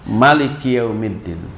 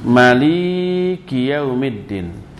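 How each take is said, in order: First: All vowels of Maliki are short. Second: The middle syllable li is held long. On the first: "dengan mak pendek" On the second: "mak pendek tapi li-nya yang panjang"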